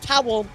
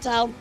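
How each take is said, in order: First: The word is pronounced fully and carefully. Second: The word is pronounced loosely, almost like 'Tal'. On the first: "Instead of being like towel" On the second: "if I say towel very loosely"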